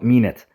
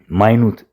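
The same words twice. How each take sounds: First: It is pronounced as the noun form. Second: It is pronounced as the adjective form. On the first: A unit of time. The speaker calls it wrong. "It's not minute. Minute ከሆነ noun form ነው" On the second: Something is very small. The speaker calls it right. "Minute ማለት በጣም tiny"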